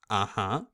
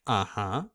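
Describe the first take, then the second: Both takes have the same delivery.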